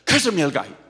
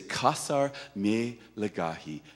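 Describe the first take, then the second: First: The phrase is said very quickly. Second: The phrase is said very slowly. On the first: "so fast they can hardly get it out of their mouths" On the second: "very slow"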